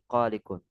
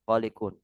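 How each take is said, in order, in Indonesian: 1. Vokal setelah konsonan pertama panjang. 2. Vokal setelah konsonan pertama pendek. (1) "bukan qalikun" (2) "Yang benar itu qalikun"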